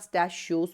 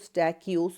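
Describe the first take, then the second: First: The middle consonant is an sh sound. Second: The middle consonant is a k sound. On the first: "या स्टैशियोस बोले" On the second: "आप इसको स्टैकियोस बोले"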